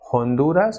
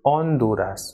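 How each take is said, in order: First: The initial H is pronounced aloud. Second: The initial H is not pronounced. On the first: The speaker calls it wrong. "it is not Honduras" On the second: The speaker calls it right. "but it is Honduras"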